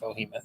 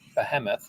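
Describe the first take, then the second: First: The first syllable sounds like 'bo'. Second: The first syllable sounds like 'be'. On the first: The speaker calls it wrong. "Like they're Bohemian" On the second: The speaker calls it right. "Behemoth, not Bohemoth"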